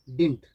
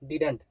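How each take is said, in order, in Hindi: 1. "didn't" में बीच वाली d ध्वनि पूरी तरह छोड़ दी जाती है। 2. "didn't" में बीच वाली d ध्वनि साफ़ बोली जाती है। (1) "इसको आप एक तरीके से और बोल सकते हैं। क्या है वो तरीका? डिंट।" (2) "क्या प्रोनाउंस किए हैं? डिडंट।"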